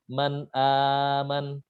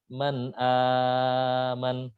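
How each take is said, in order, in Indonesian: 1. Vokal yang dipanjangkan ditahan selama waktu sedang. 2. Vokal yang dipanjangkan ditahan selama waktu panjang. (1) "empat harokat" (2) "enam harokat"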